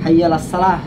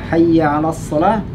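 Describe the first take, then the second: First: The throat letter is replaced by a plainer sound. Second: The Arabic throat letter is pronounced clearly. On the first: The speaker calls it wrong. "mereka cuma hayya 'alas salah. Tidak ada huruf ainnya di situ" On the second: The speaker calls it right. "harusnya semestinya hayya 'alas shalah"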